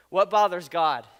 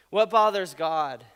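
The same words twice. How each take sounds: First: "bothers" hit loud and falling; stress on bothers. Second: "bothers" loud, slowed down; slow stress on bothers. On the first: Preacher emphasizing the better question with "bothers" stressed. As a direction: lean hard on "bothers". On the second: Preacher repeating the key question slowly, stressing "bothers". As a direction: say "What bothers God" slowly, pressing "bothers". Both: Shown as a demonstration. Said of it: "Here's a better question".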